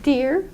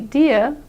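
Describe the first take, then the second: First: The word ends with an R sound. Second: The word ends without an R sound. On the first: The speaker calls it right. "you have to actually contract your mouth and make that R sound at the end" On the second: The speaker calls it wrong. "If you say only deer, that's correct in British English, but it's not correct in American English"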